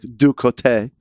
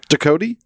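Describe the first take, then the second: First: The name is said in a French way. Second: The name is said in an anglicized way.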